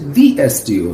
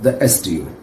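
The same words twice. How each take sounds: First: 'The' is pronounced with a long 'ee' vowel. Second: 'The' is pronounced with a short 'uh' vowel. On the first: The speaker calls it right. "So I would say" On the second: The speaker calls it wrong.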